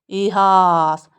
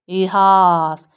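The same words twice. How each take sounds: First: The second vowel is an open 'ah' sound. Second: The same.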